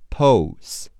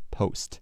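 First: "Post" drawn out sound by sound; sounded-out pronunciation. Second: Said in the usual way. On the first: Shown as a demonstration. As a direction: say "Post" slowly, stressed, in separated sounds. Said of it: "P O, po 是P O，S和T是S T". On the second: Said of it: "P O, po 是P O".

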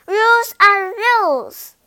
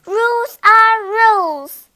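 First: High, loud insistent mosquito; stubborn little insect repeating the rule; bossy mosquito. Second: High, loud insistent mosquito; a tiny bossy insect laying down the law. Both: A narrator's reading.

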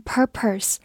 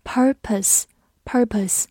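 First: "purpose" with an r-coloured second syllable; wrong pronunciation. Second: Slow "purpose" with no r in the second syllable; careful "purpose", tongue uncurled on the second syllable; correct pronunciation. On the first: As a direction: curl the tongue on both syllables of "purpose", like "pur-purse". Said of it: "注意不要读成purpose". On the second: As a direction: say "purpose" slowly, relaxing the tongue to a schwa on "-pose". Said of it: "所以第二个音不要卷舌". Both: Shown as a demonstration.

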